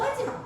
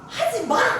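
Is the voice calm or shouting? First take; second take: calm; shouting. First: It is said calmly and firmly. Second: It is shouted loudly. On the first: The speaker calls it right. "이렇게 할 필요는 없지만 그건 그냥" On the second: The speaker calls it wrong. "막 소리"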